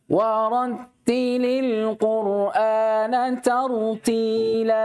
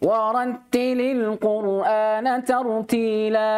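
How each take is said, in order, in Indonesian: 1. Ayat ini dibaca dengan tempo sedang. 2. Ayat ini dibaca dengan cepat. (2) "perhatikan hadar ya"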